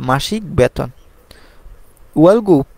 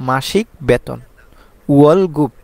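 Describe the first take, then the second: Both takes have the same delivery.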